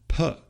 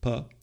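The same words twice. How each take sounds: First: The p is said with a puff of air. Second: The p is said without a puff of air.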